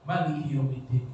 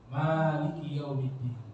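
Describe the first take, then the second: First: The first vowel of Maliki is kept short. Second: The first vowel of Maliki is drawn out long. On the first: This is the other accepted reading. "Nanti di rakaat kedua beliau bacanya pendek" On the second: This is one of two accepted readings. "ketika rakaat pertama beliau bacanya panjang"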